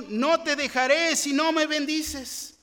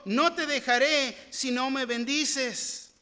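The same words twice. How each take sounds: First: "No te dejaré si no me bendices" pitched higher and louder, peaking on "me"; Jacob's vow proclaimed louder and higher; louder, higher reading. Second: "No te dejaré" with "no" drawn out, slow and weighty; Jacob's vow read slowly with stress on "no". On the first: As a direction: raise it up, urgent and ringing. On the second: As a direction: lean on "no", slow and insistent. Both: Acted. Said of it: "Y Jacob le respondió".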